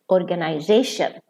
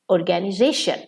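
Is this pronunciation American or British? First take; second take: British; American. First: It is said with a British pronunciation. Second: It is said with an American pronunciation. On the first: "In British English" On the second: "In American English, they pronounce it"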